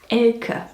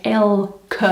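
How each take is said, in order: First: "Elke" as a German name; German pronunciation. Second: "Elke" drawn out, syllable by syllable; slowed demonstration pronunciation. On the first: Showing how the name is actually pronounced, German pronunciation. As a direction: say "Elke" with two syllables, EL-kuh. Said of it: "the name is actually pronounced". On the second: Teaching viewers the name, slow split syllables. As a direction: say "Elke" slowly as EL... kuh. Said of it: "more like Elke". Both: Shown as a demonstration.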